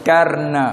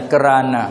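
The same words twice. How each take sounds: First: "karna" in two syllables, kar-na; "karna" drawn out as KAR-na; local pronunciation. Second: "kerana" with a vowel between k and r; "kerana" the Patani way, ke-RA-na; Patani pronunciation. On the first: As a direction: say "karna" slowly, r closing the first syllable. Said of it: "sini karna". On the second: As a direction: say "kerana" as ke-ra-na, three syllables. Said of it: "kita di petani kerana". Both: Shown as a demonstration.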